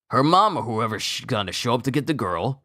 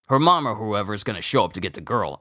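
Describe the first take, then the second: First: It ends with a continuing tune, leading onward. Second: It ends with a final tune, like a sentence end. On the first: More of the sentence follows. The speaker calls it right. "it's just a comma" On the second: The sentence is complete here. The speaker calls it wrong. "My inflection was wrong"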